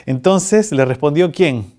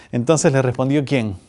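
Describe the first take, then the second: First: Said in the usual way. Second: Pregunta seria y contenida; en serio. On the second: Real, not acted. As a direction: retoma la pregunta con seriedad. (tono serio, sin bromear) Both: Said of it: "vamos en serio".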